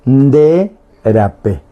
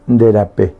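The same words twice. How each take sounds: First: De rapé, slowly, with a gap between the words; slow word-by-word model. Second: Said in the usual way. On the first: Shown as a demonstration. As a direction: draw out de, then give rapé separately. Teacher models the phrase word by word. (de rapé, lento y palabra por palabra)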